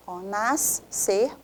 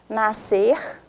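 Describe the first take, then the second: First: Nascer drawn out slowly, the S held long and split from the C; slow syllable split. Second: Said in the usual way. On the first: Shown as a demonstration. Teacher splits nascer into syllables slowly. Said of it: "o S para um lado".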